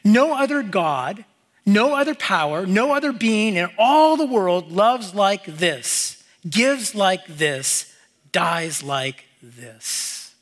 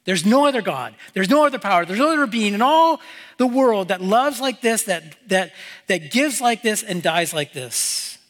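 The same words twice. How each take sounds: First: Slow and weighty, slowing to a near stop on the last words; slow solemn quote reading. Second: Fired-up restatement. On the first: Shown as a demonstration. Preacher reads the author's words to the congregation, slow and solemn. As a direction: read the quote slowly, letting each line sink in. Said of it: "he goes on and he says this". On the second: Real, not acted. Preacher repeats the quote, getting fired up, with building fervor. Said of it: "It gets me fired up".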